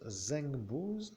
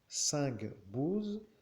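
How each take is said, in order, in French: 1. Le nom commence par un son Z. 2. Le nom commence par un son S. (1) "si je le prononce Zengbouz, cela voudrait dire à la française Z" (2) "c'est pour que la prononciation soit"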